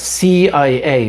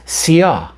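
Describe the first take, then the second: First: Each letter is said separately. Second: The letters are said together as one word. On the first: It is an initialism. "means separate letters" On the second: It is an acronym. "as a word"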